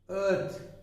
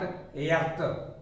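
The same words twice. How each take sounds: First: The vowel is a long central er sound. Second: The vowel is not a central er sound. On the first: The speaker calls it right. "This is earth" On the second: The speaker calls it wrong. "not earth"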